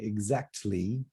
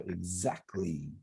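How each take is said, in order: First: It is said slowly with the T sound pronounced. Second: It is said naturally with the T sound dropped. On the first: "if I said it really slowly, I would say exactly" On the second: "So the T is gone. So we just say the K sound"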